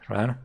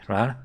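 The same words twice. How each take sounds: No difference in how they are said.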